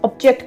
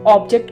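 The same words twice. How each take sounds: First: The stress is on the second syllable. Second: The stress is on the first syllable. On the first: The word is used as a verb. "अगर ये as a verb use हो रहा है" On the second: The word is used as a noun. "अगर object word as a noun use हो रहा है"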